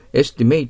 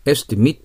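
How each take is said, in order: First: Estimate with its ending as "mate"; verb estimate. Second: Estimate with its ending as "mit"; noun estimate. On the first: Teacher gives the verb sound, estimate ending in "mate". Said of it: "estimateと読めば動詞です". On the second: Teacher gives the noun sound, estimate ending in "mit". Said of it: "estimateと読めば名詞で". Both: Shown as a demonstration.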